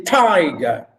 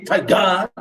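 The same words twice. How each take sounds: First: "tiger" with a long, strong first syllable, falling on the second; stress on TI. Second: "tiger" with a short first syllable and a heavy "gar" ending; wrong stress on GER. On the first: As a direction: say "tiger" as TI-ger. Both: Shown as a demonstration. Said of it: "I didn't say tiger".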